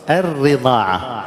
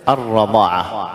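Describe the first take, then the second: First: «الرضاعة» slowly, with an i after the doubled r; kasra on ra. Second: «الرضاعة» slowly, with an a after the doubled r; fatha on ra. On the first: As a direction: say «الرضاعة» as ar-ridaa'a. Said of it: "يكسر الراء ويقول". («الرضاعة» بكسر الراء) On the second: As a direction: say «الرضاعة» as ar-radaa'a. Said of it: "أتت بالفتح". («الرضاعة» بفتح الراء) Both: Shown as a demonstration.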